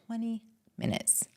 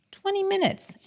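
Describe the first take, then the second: First: Softer, dropped-down "Twenty minutes"; quiet aside. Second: "Twenty minutes" jumped much higher with amazement; emphatic repeat. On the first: Answering her own question to the host, softly. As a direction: murmur "Twenty minutes" almost to yourself. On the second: Repeating the answer to the host, high and amazed. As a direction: hit "Twenty" high and incredulous. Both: Real, not acted. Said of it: "Do you know how long it took me".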